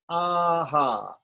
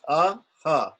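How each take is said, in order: First: Both vowels are long and drawn out. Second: Both vowels are short and clipped. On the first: "if there's a long A before it" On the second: "with the short A"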